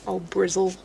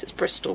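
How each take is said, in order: First: Brizzle said with a z and no t; local Bristol pronunciation. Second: Said in the usual way. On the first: Shown as a demonstration. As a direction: say Brizzle as locals shorten Bristol, ending in -zzle. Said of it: "That's what the locals call it". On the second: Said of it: "It's not actually a place, it's Bristol".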